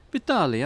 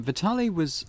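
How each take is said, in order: First: Vitali called out in a mock Eastern European accent, louder and higher. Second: Said in the usual way. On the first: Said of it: "That's my Eastern European accent".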